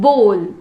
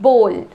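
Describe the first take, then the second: Both takes have the same delivery.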